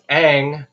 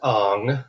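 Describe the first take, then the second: First: The name is said with an 'ang' vowel. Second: The name is said with an 'ong' vowel. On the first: The speaker calls it right. "it's Aang" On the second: The speaker calls it wrong. "not Ong, like like they were saying in the frickin' M Night Shyamalan film"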